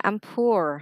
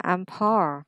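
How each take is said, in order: First: Slow "I'm poor" with "poor" as "poo-er"; oo-vowel variant. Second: Slow "I'm poor" with "poor" as "paw"; aw-vowel variant. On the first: Teacher asking learner which was heard, oo vowel. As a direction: say "poor" with a rounded oo. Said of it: "Mình nghe nó là". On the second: Teacher offering the alternative heard, aw vowel. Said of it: "hay là". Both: Shown as a demonstration.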